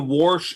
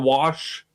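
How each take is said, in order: First: The word is said with an R sound. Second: The word is said without an R sound.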